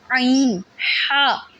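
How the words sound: The throat sounds are squeezed and said harshly. The speaker calls it wrong. "गला घोंट लेते हैं... ऐसे करके नहीं"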